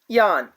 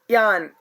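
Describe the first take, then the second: First: The vowel sounds like the 'a' in 'father'. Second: The same.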